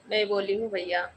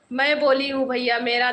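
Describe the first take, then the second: First: Said in the usual way. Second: Laughing through the words; can't stop giggling while saying it; real giggles breaking in. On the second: Real, not acted. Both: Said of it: "मैं अपने आप पे हंस रही हूँ".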